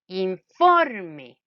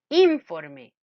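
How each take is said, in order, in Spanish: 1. El acento está en la segunda sílaba. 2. El acento está en la primera sílaba. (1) "Ah, correcto" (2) "probemos en la in"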